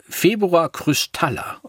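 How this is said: It is said in a Norwegian accent. "mal auf Norwegisch ausgesprochen"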